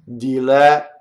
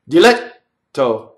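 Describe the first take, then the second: First: The vowel is long, then stops before the T. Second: The vowel before the double T is short. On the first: The speaker calls it right. "the vowel is actually long before the double T, but there's a stop in phonation" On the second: The speaker calls it wrong. "I'll shorten the vowel before the double T"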